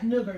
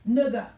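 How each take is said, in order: First: The word ends with an audible 'r' sound. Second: The word ends with a plain open vowel. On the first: It is meant as an insult. The speaker calls it wrong. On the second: It means a friend or buddy. The speaker calls it right. "N I G G A"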